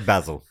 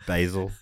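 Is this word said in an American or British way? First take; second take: British; American. First: The word is said the British way. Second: The word is said the American way. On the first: "over here, of course" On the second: "as the Americans say"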